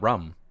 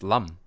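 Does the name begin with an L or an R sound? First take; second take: R; L. First: The name begins with an R sound. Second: The name begins with an L sound. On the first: The speaker calls it wrong. "It's not Ram" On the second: The speaker calls it right. "It's Lam"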